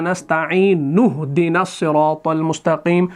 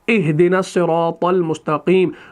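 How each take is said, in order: First: The n sound links straight into h, no stop. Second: Ihdina starts fresh with a clear glottal stop. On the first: The reciter joined it to the previous verse without pausing. "इस नस्तईन के नून को इस हा के साथ मिलाते हैं, बराह रास्त इस हमजा को छोड़ देते हैं" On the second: The reciter paused before starting this phrase. "इस हमजा को हम पढ़ते हैं"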